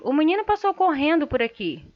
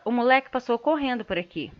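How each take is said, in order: First: Said in the usual way. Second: Pejorative tone. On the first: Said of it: "tá neutro". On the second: Shown as a demonstration. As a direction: say "moleque" as a put-down. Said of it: "a entonação da voz que muda". (tom pejorativo)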